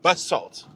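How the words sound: It is said with an American pronunciation.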